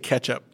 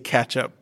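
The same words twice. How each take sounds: First: The first vowel sounds like the e in bet. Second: The first vowel sounds like the a in cat. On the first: "You say ketchup. / Yeah, with an E" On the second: "so I put an A in there. / And I say ketchup"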